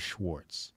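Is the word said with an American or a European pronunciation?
American. It is said with an American pronunciation. "If you want to say it like an American"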